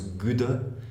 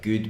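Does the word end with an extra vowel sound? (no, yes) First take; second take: yes; no. First: An extra vowel is added after the final consonant. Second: The word ends cleanly on the final consonant.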